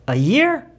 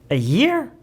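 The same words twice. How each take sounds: Both takes have the same delivery.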